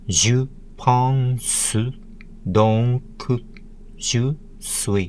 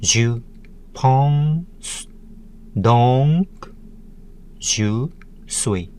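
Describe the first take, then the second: First: "Je pense donc je suis" in kana units, "pense" ending in "su"; kana-style "Je pense donc je suis", "donc" as "don-ku"; Japanese kana syllables. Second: "Je pense donc je suis" split by pauses, syllables rising mid-phrase; "Je pense donc je suis" in separate, spaced syllables. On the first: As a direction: say "Je pense donc je suis" with Japanese vowels after final consonants. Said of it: "In nine Japanese kana letters and syllables". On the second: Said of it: "seven syllables". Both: Shown as a demonstration.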